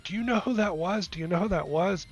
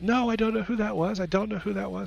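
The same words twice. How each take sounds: First: High-pitched, giddy retold questions; excited manager. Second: High, mock-giddy echo; mimicking excited manager. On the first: Manager runs over to massage therapist after session, wildly excited. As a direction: imitate a manager bursting with big news. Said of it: "jumping up and down". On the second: Therapist mocks silly manager by echoing the excitement, mimicking. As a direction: parrot the manager's squealed excitement, pitched way up. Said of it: "I just kinda mimicked my manager".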